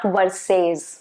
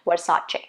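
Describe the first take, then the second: First: The word ends without a 'ch' sound. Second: The word ends with a 'ch' sound. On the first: The speaker calls it wrong. "not Versace" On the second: The speaker calls it right. "there's supposed to be the sound of ch at the end"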